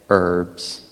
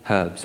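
First: The word is said in an American way. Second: The word is said in a non-American way.

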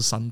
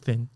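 First: It sounds like 'san', with a Taiwanese accent. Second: It is said with an English 'th' sound.

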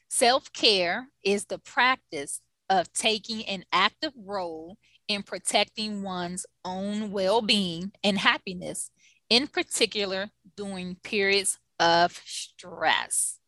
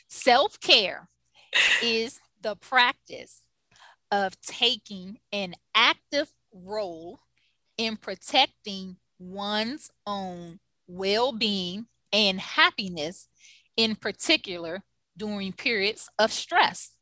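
First: It is read at a normal pace. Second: It is read slowly and carefully.

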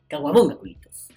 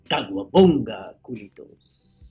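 First: It is said in the speaker's own plain voice. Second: It is said in an imitation of Javi's voice.

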